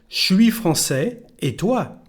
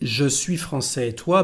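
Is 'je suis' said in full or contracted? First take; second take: contracted; full. First: Je suis is squeezed into one short syllable. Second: Je suis is said as two full words. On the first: "the pronunciation when we speak is something like suis" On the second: "the pronunciation now is"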